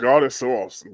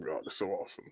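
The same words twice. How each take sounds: First: Said in the usual way. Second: Much softer and lower, almost to oneself; hushed praise. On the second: Real, not acted. Repeating praise over the damage photos, hushed praise. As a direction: let the praise sink to a private murmur.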